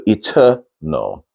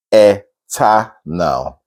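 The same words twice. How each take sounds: First: "eternal" slowly as ih-TER-nol; weak E, no A. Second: "eternal" very slowly as eh... tah... nal; full spelled-out vowels. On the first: Teacher modelling the right way, slow ih-TER-nol for "eternal". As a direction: stretch TER in "eternal", then go straight to the L. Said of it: "So eternal". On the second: Teacher showing the wrong way, "eternal" as slow eh-tah-nal. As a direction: split "eternal" into three open syllables, eh-tah-nal. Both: Shown as a demonstration.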